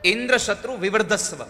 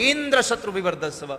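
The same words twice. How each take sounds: First: The phrase is said in a calm, even way. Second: The phrase is said angrily, hitting Indra hard.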